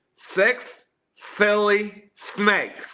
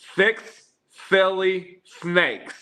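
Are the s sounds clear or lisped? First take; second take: lisped; lisped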